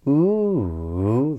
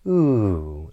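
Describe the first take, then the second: First: The pitch rises, falls, then rises again. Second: The pitch falls through the sound. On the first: The speaker has not finished yet. "this circumflex inflection, this ooh, this rise, fall, rise" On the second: It marks a statement, exclamation or command. "this downward intonation would be"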